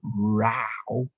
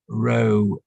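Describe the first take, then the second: First: The word is said with a changed vowel. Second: The word is said with its usual vowel. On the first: An argument with somebody. "if we change the pronunciation to row" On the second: A line of things. "meaning a line of something"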